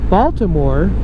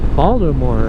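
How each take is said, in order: First: The middle consonant is a clear T sound. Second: The middle consonant is a D sound.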